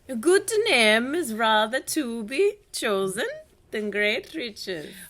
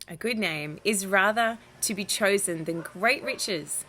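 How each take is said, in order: First: It is read in a put-on foreign accent. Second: It is read in the reader's ordinary voice. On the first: "something European?" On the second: "we'll just try it in the normal voice"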